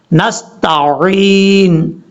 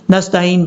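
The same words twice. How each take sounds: First: Very slow 'نستعین', long throaty ع; clear ain. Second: Quick 'نستعین' as nastaa-een; ain as hamza. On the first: Teacher shows the clear letter, slow correct recitation. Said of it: "آپ نے clear کرنا ہے". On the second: Teacher shows the common mistake, mistaken recitation. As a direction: say 'نستعین' with no throat squeeze. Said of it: "عین کو حمزہ پڑھ جاتے ہیں". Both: Shown as a demonstration.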